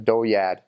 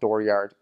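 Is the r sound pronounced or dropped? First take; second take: dropped; pronounced. First: The r sounds are dropped in a local accent. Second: The r sounds are clearly pronounced. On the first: "So they call it a dooryard" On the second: "they don't call it dooryard because they don't say they're ours"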